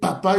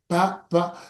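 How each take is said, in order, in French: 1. Le mot est prononcé d'un seul trait. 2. Le mot est découpé syllabe par syllabe.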